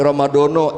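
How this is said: The final vowels are rounded 'o' sounds. The speaker calls it wrong. "saya dari Jawa, Ramadono jangan"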